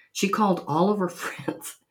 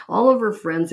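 First: Said in the usual way. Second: All punched louder and higher; stress on ALL. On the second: Shown as a demonstration. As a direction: lean hard on the word all.

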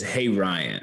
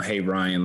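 First: Said in the usual way. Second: Like a Bible verse. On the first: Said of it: "I start breaking down". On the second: Retold or imitated. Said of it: "like it's a Bible verse".

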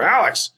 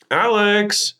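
First: "Alex" high, then falling quickly; short "Alex" with a steep drop in pitch; wife's sharper tone. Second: "Alex" high and drawn out; wife calling his name. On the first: Wife says her husband's name with meaning, high falling tone. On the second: Wife calls her husband on the phone, high drawn-out tone. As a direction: sing out "Alex", held high and long. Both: Acted. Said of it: "The way that she says my name".

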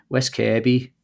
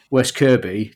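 First: West Kirby with a Wirral-accent vowel, like "Kairby"; imitated Wirral accent. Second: West Kirby in a rough Kent accent; attempted Kent accent. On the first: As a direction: switch into the kids' new Wirral accent. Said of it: "now been living on the Wirral". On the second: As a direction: have a go at a Kent accent, slowly. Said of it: "That was a Kent accent, was it?". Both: Shown as a demonstration.

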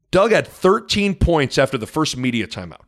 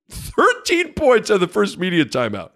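First: Said in the usual way. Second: "Thirteen" hit high, the whole line pitched higher; emphatic repeat. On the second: Real, not acted. Announcer repeats the stat to listeners, emphatic. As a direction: hammer the number home.

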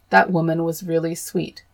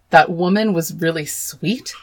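First: Said in the usual way. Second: That woman was really sweet echoed in disbelief, rising at the end; incredulous repeat. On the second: Real, not acted. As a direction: throw the quote back, appalled. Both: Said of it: "Cue me screaming again".

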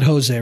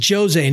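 First: "Jose" begun with an H sound; rejected pronunciation. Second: "Jose" begun with an English J sound; checking the pronunciation. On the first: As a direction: say "Jose" as Ho-zay. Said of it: "not Jose, right?". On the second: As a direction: say "Jose" as Jo-zay. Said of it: "not Jose". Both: Shown as a demonstration.

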